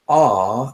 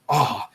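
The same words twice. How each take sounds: First: The aw is drawn out long. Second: The aw is cut short, like a scoff.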